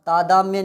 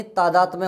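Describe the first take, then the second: First: तादाम्य without a "t" before "mya"; missing t sound. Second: तादात्म्य with "t" sounded before "mya". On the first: Teacher showing a mistaken word, t-less तादाम्य. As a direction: say तादाम्य, going straight from "daa" to "mya". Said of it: "नहीं". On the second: Teacher giving the corrected word, तादात्म्य with its t. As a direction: say तादात्म्य as taa-daat-mya. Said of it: "होता है". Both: Shown as a demonstration.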